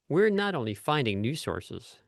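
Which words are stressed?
finding, new. Both finding and new are stressed.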